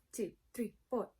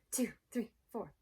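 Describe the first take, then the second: No difference in how they are said.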